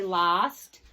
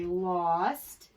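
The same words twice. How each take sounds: First: The vowel is not the aw sound. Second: The vowel is the aw sound. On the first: The speaker calls it wrong. "we don't say lost" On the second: The speaker calls it right. "We say lost"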